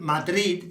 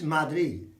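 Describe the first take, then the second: First: The final D is clearly pronounced. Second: The final D is dropped or very soft. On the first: This is the English pronunciation. "Madrid isn't Madrid in Spanish" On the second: This is the Spanish pronunciation. "in Spanish, it's Madrid"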